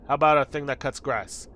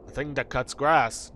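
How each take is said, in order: First: Said in the usual way. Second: Slow, puzzled echo as a knight; baffled knight. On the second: Acted. Knight echoing the player, slow and baffled. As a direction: repeat it slowly, as if unheard of.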